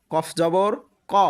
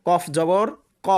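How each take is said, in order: Both takes have the same delivery.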